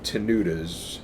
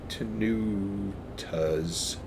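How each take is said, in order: First: The middle consonant sounds like a D. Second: The middle consonant sounds like a T. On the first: The speaker calls it wrong. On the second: The speaker calls it right.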